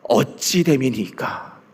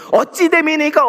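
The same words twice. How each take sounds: First: Plaintive question. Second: "어찌 됨이니까" said higher, as an indignant challenge; a worshipper protesting "어찌 됨이니까"; complaining question. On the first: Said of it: "뭐라고 얘기합니까?". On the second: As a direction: throw "어찌 됨이니까" back at God as a complaint. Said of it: "어찌 됨이니까 일어나고 있는". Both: Retold or imitated.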